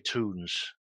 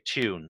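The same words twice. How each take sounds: First: It is said in an American accent. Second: It is said in the speaker's home accent.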